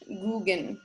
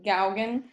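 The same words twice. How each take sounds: First: The name is said with a French pronunciation. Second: The name is read the way it is spelled. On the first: The speaker calls it right. "it's actually pronounced the French Gauguin" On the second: The speaker calls it wrong. "his name looks like Gauguin"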